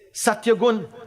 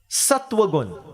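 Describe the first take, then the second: First: The first part sounds like 'satya'. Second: The first part sounds like 'sattva'. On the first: The speaker calls it wrong. "The way you say it. You say Satyagun" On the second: The speaker calls it right. "But the pronunciation is Sattvagun"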